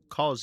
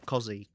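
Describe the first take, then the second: First: The name is said as one short syllable. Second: The name is said with two syllables. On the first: The speaker calls it wrong. "we were all saying it wrong" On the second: The speaker calls it right. "it turns out Cos is actually uh, Cozzy"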